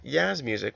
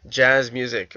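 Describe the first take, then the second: First: The first sound of jazz is soft. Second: The first sound of jazz is hard.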